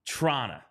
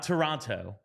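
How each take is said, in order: First: The final t sound is dropped. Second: The final t sound is clearly pronounced. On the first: The speaker calls it right. "You're apparently supposed to not say the T at the end of Toronto" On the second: The speaker calls it wrong. "not Toronto"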